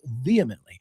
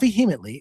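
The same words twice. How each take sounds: First: The H sound is left silent in the middle. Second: The H sound is pronounced in the middle. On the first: The speaker calls it right. "it's vehemently" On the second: The speaker calls it wrong. "it's not vehemently"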